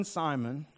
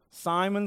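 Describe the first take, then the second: First: Tender repeat. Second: A lifted call of the name; calling his name. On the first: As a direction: let the second Simon drop gently. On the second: Jesus calls Simon by name, lifting it warmly. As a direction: reach out with a rising Simon. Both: Retold or imitated. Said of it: "he's being affectionate".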